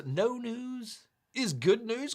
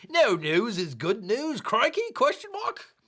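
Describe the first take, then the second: First: Said in the usual way. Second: Hammed-up Aussie with rising, high question endings; bad Australian accent. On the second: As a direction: read it like a cartoon Australian. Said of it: "I gotta do this in the accent".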